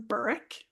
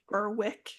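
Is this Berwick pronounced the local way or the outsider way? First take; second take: local; outsider. First: It is pronounced the way local residents say it. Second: It is pronounced the way outsiders say it. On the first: The speaker is from the area. "if you're from the area, you say you're from Berwick" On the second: The speaker is not from the area. "if you're not from the area, area you call it Berwick"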